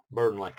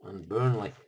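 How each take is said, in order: First: Put-on Burnley drawn out in a broad Burnley accent, louder; Burnley said the Burnley way, bə˞nlaɪ. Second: Said in the usual way. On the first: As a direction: mimic how they say Burnley in Burnley. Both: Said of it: "They talk like that in Burnley".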